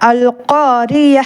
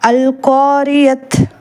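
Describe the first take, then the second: First: The word ends with a silent h sound. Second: The word ends with a t sound. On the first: The speaker calls it right. "அல் காரிய அப்படின்னு சொல்லி நம்ம ஸ்டாப் பண்ணணும்" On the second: The speaker calls it wrong. "இந்த சட்டம் தெரியல அப்படின்னா இதை நம்ம எப்படி ரீட் பண்ணுவோம்?"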